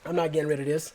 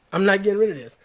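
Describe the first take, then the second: First: Said in the usual way. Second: Louder, higher insistence on "rid"; emphatic repeat. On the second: Real, not acted. Vowing to viewers he will keep the jacket, louder and higher. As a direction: drive it home, hitting "rid" louder and higher.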